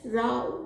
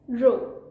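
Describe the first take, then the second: First: The vowel rhymes with 'cow'. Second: The vowel rhymes with 'go'. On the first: It means a quarrel. "The second pronunciation of this word is row, which means a quarrel" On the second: It means a line. "One of the pronunciations of this word is row, which means align"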